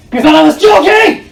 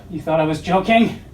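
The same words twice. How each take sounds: First: Shouted high and loud; incredulous shout. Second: Said in the usual way. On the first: Acted. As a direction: yell it in disbelief. Repeated line, second shouted.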